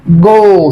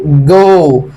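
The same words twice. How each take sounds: First: جو with a hard Egyptian G, as a wrong example. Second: جو with a soft J sound, like joe; soft English J. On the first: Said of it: "ما بقولش جو". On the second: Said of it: "بقول إيه؟". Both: Shown as a demonstration.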